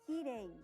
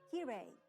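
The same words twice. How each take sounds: First: The r is a light tap of the tongue. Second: The r is an English-style r sound. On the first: The speaker calls it right. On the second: The speaker calls it wrong.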